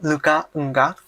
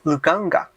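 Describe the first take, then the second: First: Enggak is said apart from the word before. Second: Enggak is joined onto the vowel before. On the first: The speaker calls it wrong. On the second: The speaker calls it right.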